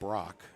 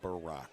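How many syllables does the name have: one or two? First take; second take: one; two. First: The name is said as one syllable. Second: The name is said as two syllables. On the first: The speaker calls it right. "it is Brock" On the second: The speaker calls it wrong. "not Barack"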